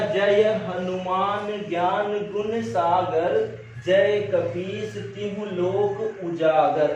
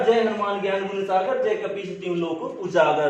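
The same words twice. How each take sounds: First: It is read slowly and haltingly. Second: It is read quickly in one smooth flow.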